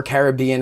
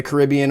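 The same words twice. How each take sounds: First: Caribbean with the stress on BE; alternative pronunciation. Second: Caribbean with the stress on RIB; first pronunciation. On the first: Host offering listeners the other pronunciation of Caribbean, stress on BEE. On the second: Host reading availability to listeners, first pronunciation of Caribbean, stress on RIB. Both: Shown as a demonstration. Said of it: "however you choose to say it".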